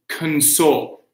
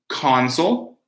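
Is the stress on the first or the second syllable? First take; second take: second; first. First: The stress is on the second syllable. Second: The stress is on the first syllable. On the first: It is a verb: to comfort someone. "or the verb" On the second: It is a noun: a device like a video game system. "So we have the noun"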